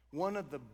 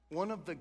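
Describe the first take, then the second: No difference in how they are said.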